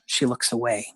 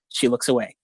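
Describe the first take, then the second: First: It is read in a sad, somber tone. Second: It is read in a flat, clinical tone.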